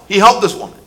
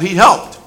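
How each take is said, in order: First: Helped pressed down with a falling tune; stress on helped. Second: Helped lifted with a rising tune; stress on helped. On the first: Preacher repeating helped this woman with a fall. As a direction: land firmly on helped, falling. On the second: Preacher stressing helped with a rise. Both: Shown as a demonstration.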